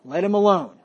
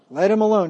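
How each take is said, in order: First: Said in the usual way. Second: "Let him alone" louder, pressing on "alone"; stressed repeat. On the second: Shown as a demonstration. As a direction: hit "alone" harder the second time.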